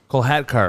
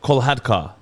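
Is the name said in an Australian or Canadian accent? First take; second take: Canadian; Australian. First: It is said in a Canadian accent. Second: It is said in an Australian accent.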